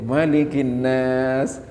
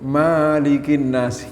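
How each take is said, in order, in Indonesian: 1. Vokal setelah suku kata pertama dibaca pendek. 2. Vokal setelah suku kata pertama dibaca panjang. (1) "Itu di situ pendek"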